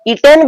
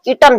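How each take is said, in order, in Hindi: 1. दूसरे अक्षर में पूरा 'en' स्वर है। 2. दूसरे अक्षर में हल्का, कमजोर स्वर है। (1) "ईटेन भी कह सकते हैं" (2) "मुझे ज्यादा सही लगता है ईटन"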